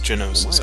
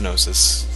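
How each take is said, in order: First: A vowel separates the g from the n. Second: The word starts with a blended gn sound. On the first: "I've heard it pronounced Genosis" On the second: "Pretty sure it's Gnosis"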